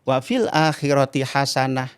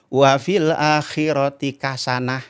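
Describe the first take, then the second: First: The last word starts with an h sound. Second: The last word starts with a k sound. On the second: "orang Banten baca Quran? ... hasanah jadi kasan"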